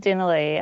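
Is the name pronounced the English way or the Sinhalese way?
English. The name is said with English-style pronunciation. This is the everyday form the speaker has always used. "I pronounce it as Denali"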